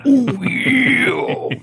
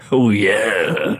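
First: Squeaky high-pitched oh yeah; high mock squeal. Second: Said in the usual way. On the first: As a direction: shoot the voice way up. Repeated, far higher, mock.

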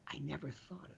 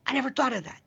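First: A near-silent, dropped-away voicing of "I never thought of that."; barely audible aside. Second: "I never thought of that" raised noticeably higher, as a sudden realization; lifted, wondering voice. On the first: The host voicing a listener's private realization, almost inaudible. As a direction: let it fall almost to nothing, like a private thought. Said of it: "I want you to say". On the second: Retold or imitated. The host asking Jordan about epiphanies, raised and wondering. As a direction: lift the voice up in fresh amazement. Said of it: "where you say".

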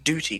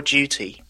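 First: DUTY with a hard D, doo-ty. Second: DUTY as jooty; softer pronunciation. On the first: Briton echoing the host's fault, hard-D DUTY. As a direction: hit a plain hard D in "duty". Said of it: "a really hard D there". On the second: Briton correcting the host, jooty for DUTY. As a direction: slide the D of "duty" into a J. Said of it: "you got a really hard D there". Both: Shown as a demonstration.

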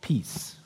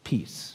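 First: Breathy whisper on peace. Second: Much softer peace, nearly breathed. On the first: Pastor to congregation, whispering peace. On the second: Pastor naming the sermon word, softly. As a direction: let peace fall softly. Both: Shown as a demonstration. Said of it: "the word that I'm talking about is".

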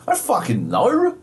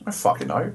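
First: High-pitched, hammed-up bafflement; escalated exasperation. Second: Restrained, higher-pitched exasperation; exasperated. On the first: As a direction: let the exasperation burst out in pitch. Repeated exasperated reply, escalated take. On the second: Acted. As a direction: hold the exasperation in. Repeated exasperated reply, first take.

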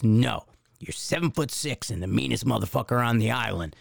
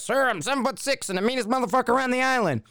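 First: Low-key, slightly lowered coaching order; feed the recruit his line, firmly and evenly; lightly voiced drill instructor. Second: High, strained military reply; mock recruit sounding off. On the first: Drill instructor correcting recruit nose to nose, lightly voiced firm order. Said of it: "so this drill instructor". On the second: Recruit answering the officer as coached, high mock sounding-off.

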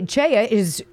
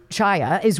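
First: "Chaya" with an "ay" as in day; first vowel of "Chaya" like "day"; Chaya as CHAY-a. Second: "Chaya" with an "eye" vowel; first vowel of "Chaya" like "eye"; Chaya as CHAI-a. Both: Real, not acted. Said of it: "I forget how to pronounce her name".

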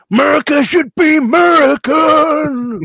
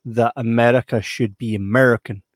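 First: Higher, louder, slow shouted slogan in a put-on voice. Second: Said in the usual way. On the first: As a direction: bellow it like a rally chant. Racist slogan shouted in character.

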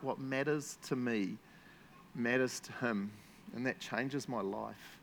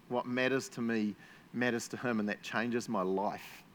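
First: Slow, savoring each phrase; slow, heartfelt reread of the quote's last line; slow emphatic reread. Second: Said in the usual way. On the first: Shown as a demonstration. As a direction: linger on "What matters to me". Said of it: "love that last bit".

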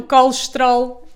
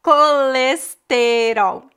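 First: Colesterol clipped to kolʃtɾol; Portuguese colesterol. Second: Very slow colesterol with every vowel, final L as U; slow teaching demo of Brazilian colesterol. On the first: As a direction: run colesterol through in two beats. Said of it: "completamente diferente". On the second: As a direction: colesterol spelled out carefully, kolesteɾow. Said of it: "nós dizemos". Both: Shown as a demonstration.

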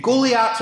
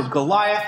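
First: "Goliath" said the Hebrew way; foreign-sounding "Goliath", as in the original tongue; Hebrew-style pronunciation. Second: Said in the usual way. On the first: Shown as a demonstration. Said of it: "or Goliath as we say it". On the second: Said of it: "as we say it".

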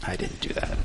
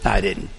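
First: A sheepish whisper, much softer; whispered confession. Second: Said in the usual way. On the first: Real, not acted. Pastor admitting to his congregation he didn't follow advice, whispered. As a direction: drop to a whisper, half admitting it.

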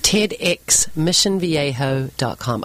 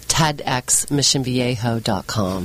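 First: Said in the usual way. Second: Slow, low American accent. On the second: Shown as a demonstration. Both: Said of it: "I could do that in an American accent".

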